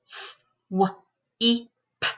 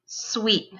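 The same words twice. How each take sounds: First: S... w... ee... p, each alone; sounded out phonemes. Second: Said in the usual way. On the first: Shown as a demonstration. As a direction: SWEEP split into four sounds. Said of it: "say the sounds in the word". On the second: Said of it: "put those sounds into a word".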